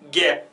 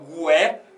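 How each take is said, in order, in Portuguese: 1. Não se ouve som de U depois do G. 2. Ouve-se um som de U depois do G. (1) "você fala simplesmente gué. Então o U não é pronunciado" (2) "você não fala gué"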